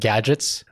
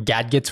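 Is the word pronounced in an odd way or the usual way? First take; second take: usual; odd. First: The word is pronounced the usual way. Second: The word is pronounced in an odd way. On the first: The speaker calls it right. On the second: The speaker calls it wrong.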